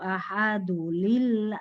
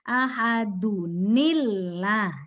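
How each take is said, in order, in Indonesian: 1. Tidak ada bunyi n yang menghubungkan ahadu dengan kata berikutnya. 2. Ada bunyi n yang menghubungkan ahadu dengan kata berikutnya. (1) "Ada yang begitu, lillah dari mana?" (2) "Ada nunnya ya, sukun"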